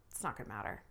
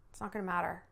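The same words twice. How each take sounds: First: "It's not gonna matter" much lower and softer, muttered; low, dropped aside. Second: Said in the usual way. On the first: Shown as a demonstration. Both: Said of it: "blah, blah".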